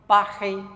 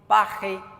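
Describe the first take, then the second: First: It is said with a French accent. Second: It is said with a French accent.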